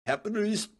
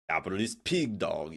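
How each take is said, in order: First: Put-on capitalist in a high, jumped-up Russian accent; mock Russian, pitched way up on capitalist. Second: Said in the usual way. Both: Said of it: "I tried to put on my best Russian accent there".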